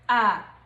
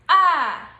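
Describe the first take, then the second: First: It is said in the neutral tone. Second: It is said in the fourth tone. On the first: "The last one is the neutral tone" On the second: "This is the fourth tone"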